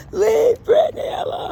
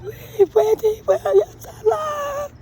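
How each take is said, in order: First: Much higher, loud tearful shout. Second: Much higher, slow sobbing shout; tearful viral wail. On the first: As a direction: wail it like the viral fan. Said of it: "like that boy did". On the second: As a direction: beg through hammed-up tears. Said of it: "I'm gonna do it". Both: Retold or imitated.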